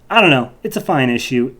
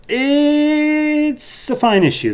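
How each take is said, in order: First: Said in the usual way. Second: Much higher, drawn-out, put-on voice; mock-grand verdict. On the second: Reviewer giving his verdict on the issue, in a high mock-grand voice. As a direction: stretch it out like a sarcastic pronouncement.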